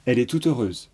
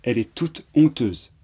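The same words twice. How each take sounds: First: Said in the usual way. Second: Toute, a short break, then honteuse with no liaison; small pause before honteuse. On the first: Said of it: "Vous entendez la différence?". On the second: Shown as a demonstration. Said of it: "normalement on fait une petite pause". (petite pause avant « honteuse », sans liaison)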